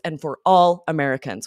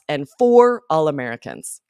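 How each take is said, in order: First: The stress falls on the word all. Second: The stress falls on the word for. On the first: The speaker calls it right. "We would emphasize all" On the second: The speaker calls it wrong. "the word stress was wrong"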